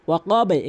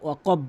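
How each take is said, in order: First: The final consonant ends with a bouncing echo. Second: The final consonant stops abruptly without a bounce. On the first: The speaker calls it right. "ওয়াকবে বলতে হবে" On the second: The speaker calls it wrong. "অধিকাংশ লোক ওয়াকব বলে"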